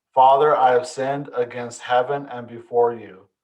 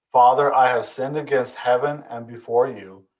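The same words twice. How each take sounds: Both takes have the same delivery.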